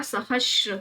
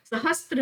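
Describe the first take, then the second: First: सहस्र with no t, just sibilant plus r; correct pronunciation. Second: सहस्त्र with a t before the r; wrong pronunciation. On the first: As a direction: say सहस्र slowly as sa-hash-ra. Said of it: "सहस्र होता है". (सहस्र धीरे, बिना त के) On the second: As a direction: say सहस्त्र as sa-has-tra. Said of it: "सहस्त्र नहीं होता". (सहस्त्र में 'स्त्र' की आवाज़) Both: Shown as a demonstration.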